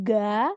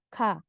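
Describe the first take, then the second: First: It starts with a fully voiced g sound. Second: It starts with a sound between g and k. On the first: The speaker calls it wrong. "Jadi bukan ga" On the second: The speaker calls it right. "tapi antara G sama K"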